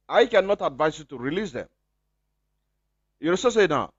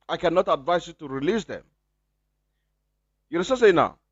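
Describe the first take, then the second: No difference in how they are said.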